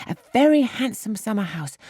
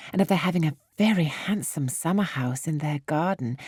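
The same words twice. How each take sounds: First: Put-on "very" lifted higher with girlish delight; eager repeat. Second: Said in the usual way. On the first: A narrator's reading. Harriet repeating the summer house to Emma, higher and delighted. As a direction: gush over the word "very". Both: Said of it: "speak with so much exultation".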